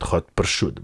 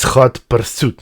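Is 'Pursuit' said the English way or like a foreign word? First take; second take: foreign; English. First: Pursuit is said like a non-English word for cured meat. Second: Pursuit is said with its English pronunciation. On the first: The speaker calls it wrong. "not Hot Pursuit" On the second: The speaker calls it right. "it's Hot Pursuit"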